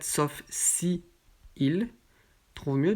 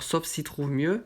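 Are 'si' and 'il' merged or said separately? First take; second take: separately; merged. First: Si and il are said as separate syllables. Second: Si and il merge into one syllable.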